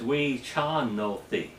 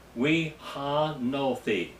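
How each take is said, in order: First: The second syllable begins with a throaty ch sound. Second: The second syllable begins with a plain h sound. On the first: The speaker calls it right. "the correct pronunciation is we cha no thee. Cha, not H, but C H" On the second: The speaker calls it wrong. "it's going to give you the wrong pronunciation of it"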